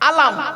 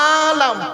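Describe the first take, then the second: First: The first vowel is short, not drawn out. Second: The first vowel is long, drawn out. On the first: It means a flag or sign. "আলাম মানে পতাকা বা চিহ্ন" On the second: It means the world. "আতে টান দিলে"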